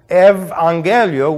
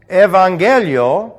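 Both takes have the same delivery.

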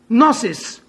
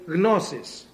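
First: The initial G is silent. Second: The initial G is pronounced. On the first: The speaker calls it wrong. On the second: The speaker calls it right.

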